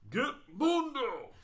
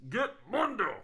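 First: High, slow bellow from the tower; guard's shout. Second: High, much louder call with a harder Mundo; guard's shout. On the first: Guard tower sentry shouting to the others, a slow high bellow. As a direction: roar the order across the fields. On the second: Guard correcting the name, shouting it high and loud. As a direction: yell it out from the wall. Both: Acted.

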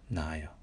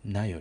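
First: なあよ with な and あ held apart; separate vowels. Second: なよ with な and あ run together; merged vowels. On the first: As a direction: give あ its own beat in なあよ. (「な」と「あ」を分けて「なあよ」と発音) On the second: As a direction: shorten it to なよ, no separate あ. (「な」と「あ」をくっつけて「なよ」と発音) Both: Shown as a demonstration. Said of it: "なとあをくっつけてしまわないように".

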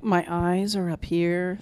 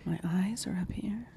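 First: Slow, put-on creepy voice; friend's bit as a serial killer. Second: Soft, creepy whisper; whispered serial killer bit. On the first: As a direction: let it creep out slowly. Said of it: "That's [name]'s, [name]'s impression of, uh, Ted Bundy". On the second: Retold or imitated. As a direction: breathe it out like a killer showing off. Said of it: "I can do an impression".

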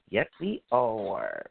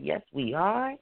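First: Low and slow. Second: Said in the usual way. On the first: Real, not acted. Slow low repeat of same words.

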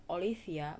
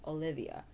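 First: Olivia with an F for the V, "Olifia"; wrong pronunciation. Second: Olivia with a clear V; correct pronunciation. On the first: Vlogger showing the mistake in Olivia, mispronounced. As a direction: mispronounce Olivia as oh-LEE-fee-a. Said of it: "It's not Olivia". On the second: Vlogger correcting the female name Olivia, correct pronunciation. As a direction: model Olivia as oh-LIV-ee-a. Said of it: "but it's Olivia". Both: Shown as a demonstration.

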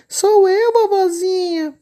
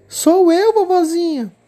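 First: Much higher, louder fake little-girl voice; wolf pretending sweetly to be the child; wolf faking a little girl. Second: Put-on much higher, louder little-girl voice; the girl calling out to grandma. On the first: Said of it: "imitando a voz de uma garotinha". (lobo fingindo voz de menininha) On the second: Menina responde. (menininha, voz aguda)

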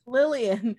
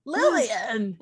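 First: Said in the usual way. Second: Loud, drawn-out mock-panicked call. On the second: Player calls for the baddie in character, mock panic. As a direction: call the name out in a badly acted panic. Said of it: "in a really bad voice".

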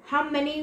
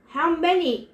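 First: Said in the usual way. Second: Louder, forceful demand. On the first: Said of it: "Luke asked". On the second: A narrator's reading. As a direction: insist on an answer. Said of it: "the general demanded".

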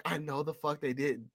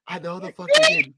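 First: Quiet disbelief. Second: Loud, squeaky outraged repeat; high-pitched disbelief. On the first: Host reacting to the villain's silly defeat, quiet disbelief. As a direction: say it under your breath, appalled. Acted disbelief, then repeated higher. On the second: Host reacting to the villain's silly defeat, high-pitched outraged disbelief. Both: Retold or imitated.

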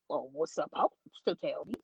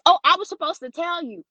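First: Low, soft questioning echo; retold disbelieving echo. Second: Higher-pitched mimicked bottle girl; imitated bottle girl. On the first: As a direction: echo it back low and doubtful. Echoes bottle girl back in disbelief. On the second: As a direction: put on the server's higher voice. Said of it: "She goes".

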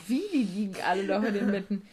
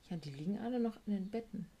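First: Louder, disbelieving repeat of the question; incredulous echo. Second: Said in the usual way. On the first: Retold or imitated. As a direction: throw the line back in shock. Ungläubiges Nachfragen im Rückblick. (laut und ungläubig)

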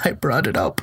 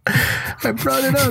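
First: Said in the usual way. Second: Very high, drawn-out squeal; high-pitched protest. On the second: Retold or imitated. Brother answers the old man asking for food, high helpless protest.

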